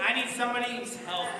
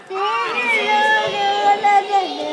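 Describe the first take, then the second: First: Said in the usual way. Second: High, loud, slow stretch on need; dramatic emphasis. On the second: Shown as a demonstration. Teacher pleading for a child helper, loud and drawn out. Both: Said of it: "I need you to listen".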